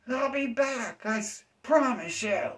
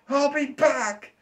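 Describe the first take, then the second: First: Whiny vow repeated. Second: Very high, slow squeaky threat; whiny vow of revenge. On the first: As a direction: repeat the squeaky vow, less force. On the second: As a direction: stretch out the squeaky comeback vow. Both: Retold or imitated. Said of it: "That person feels like".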